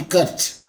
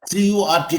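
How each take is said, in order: First: "cut" as a single syllable; "cut" run together, not letter by letter; said as one word. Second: "C U R T" spelt out letter by letter; each letter of "C U R T" on its own; letters said separately. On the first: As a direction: say "cut" as a word, without spelling it. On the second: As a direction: say "C U R T" as four letter names. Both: Shown as a demonstration. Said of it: "I pronounce it as a one word".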